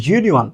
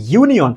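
First: ইউনিয়ন begun with a soft z-like consonant; soft z-like onset. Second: Said in the usual way. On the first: Shown as a demonstration. Teacher answers the class's question, ইউনিয়ন with z-like onset. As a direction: start ইউনিয়ন on a buzzed z-glide before the u. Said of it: "এই রকমের, অর্থাৎ শুরুতে জের মতো". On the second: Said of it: "এইটাও কার মতো বলেন".

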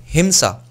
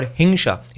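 First: Said in the usual way. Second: "hingsha" with ng and sh; Bengali pronunciation. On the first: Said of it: "the word himsa or hingsha". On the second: Shown as a demonstration. Giving another example word in Bengali, Bengali pronunciation of "hingsha".

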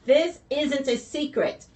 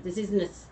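First: Slow, higher, deliberate delivery; getting it out. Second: Stumbling false start; stuttering. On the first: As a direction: push through the stutter to finish "secret". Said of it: "I can't say it". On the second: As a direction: break off on the "s" of "secret". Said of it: "I'm stuttering". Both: Real, not acted.

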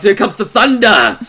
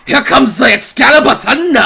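First: Hyped announcement, not yet full volume; building hype. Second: High, excited announcer-like shout; hyped shout. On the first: Streamer bracing for the heroine's retort, rising hype. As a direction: start building the excitement. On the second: Streamer heralding the heroine's big retort, excited shouting. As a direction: shout it as the hype peaks. Hype peaks before a retort. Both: Real, not acted.

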